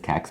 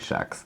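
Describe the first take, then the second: First: The word has a standard pronunciation. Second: The word has a Stockholm pronunciation. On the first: "I think the correct way is Kex" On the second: "that's the way Stockholmers say it"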